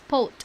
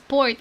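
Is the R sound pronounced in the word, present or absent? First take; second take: absent; present. First: The word is said without any R sound. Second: The word is said with an audible R sound. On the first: "it's pot. ... wala silang R" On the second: "they do not pronounce it as port"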